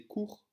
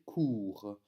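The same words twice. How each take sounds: First: "court" with a short ou. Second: "court" with the ou drawn out long, Liège style. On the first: Teacher showing the wrong short version. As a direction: clip the ou in "court". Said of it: "ne va pas se prononcer court, puisque dans court, nous avons un ou bref". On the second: Teacher showing the right long Walloon ou. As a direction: stretch the ou in "court". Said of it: "avec un ou long". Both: Shown as a demonstration.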